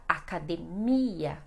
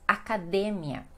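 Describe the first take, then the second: First: "academia" as a-ca-de-MI-a, stress on MI; Portuguese pronunciation. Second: "academia" as a-ca-DE-mia, stress on DE; Spanish pronunciation. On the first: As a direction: draw out MI in "academia". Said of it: "que no português fica". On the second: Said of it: "no português e no espanhol". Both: Shown as a demonstration.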